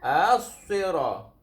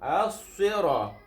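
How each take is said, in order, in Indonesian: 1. Bunyi s-nya berat dan emfatik. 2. Bunyi s-nya berat dan emfatik.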